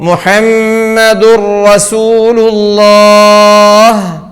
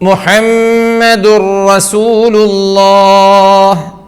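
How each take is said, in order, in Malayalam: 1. n ഇരട്ട r ശബ്ദത്തിൽ ലയിക്കുന്നു. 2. n ഇരട്ട r ശബ്ദത്തിൽ ലയിക്കുന്നു.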